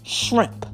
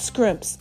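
First: The word begins with an 'shr' sound. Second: The word begins with an 'scr' sound. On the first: The speaker calls it right. "Let's get the pronunciation correct" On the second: The speaker calls it wrong. "not scrimps"

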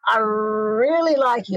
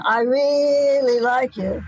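First: The r consonant of really is held long. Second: The vowel of really is held long.

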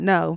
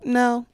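First: It is said firmly and aggressively. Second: It is said softly and timidly.

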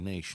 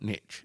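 First: It is said the non-American way. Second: It is said the American way. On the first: "But we say niche" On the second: "not niche"

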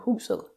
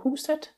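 First: The word ends with a soft D sound. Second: The word ends with a clear T sound. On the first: This is how it is said on Zealand. "we would go husel" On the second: This is how it is said in parts of Jutland. "They would go huset"

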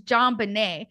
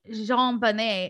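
First: The name is said with an English pronunciation. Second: The name is said with a French pronunciation. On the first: The speaker calls it right. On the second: The speaker calls it wrong.

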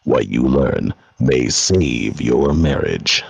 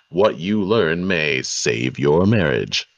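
First: It is read in a dubious, skeptical way. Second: It is read in a straight, sincere way.

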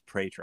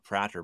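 First: The name is pronounced with English vowel sounds. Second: The name is pronounced with Dutch vowel sounds. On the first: The speaker calls it right. "but it's Prater" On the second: The speaker calls it wrong. "in Dutch, your last name, Prater, means talker or speaker. And so I just automatically was calling you Prater"

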